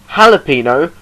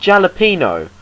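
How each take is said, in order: First: The word begins with an H sound. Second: The word begins with a J sound. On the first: The speaker calls it right. "It's spelt with a J, but it's pronounced a H" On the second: The speaker calls it wrong.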